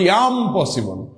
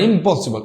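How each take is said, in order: First: It is split into two words, I'm possible. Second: It is said as one word, im-possible. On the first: The speaker is capable of it. The speaker calls it right. "এখানে বলতে হবে ইয়াম পসিবল" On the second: Something cannot be done. The speaker calls it wrong. "ইম্পসিবল বলা যাবে না"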